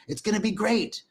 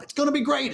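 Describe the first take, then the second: First: Said in the usual way. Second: High-pitched, hammed-up politician impression; mock a boastful politician, pitched way up; playful boastful impersonation; Donald Trump. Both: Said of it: "does that sound like Donald Trump".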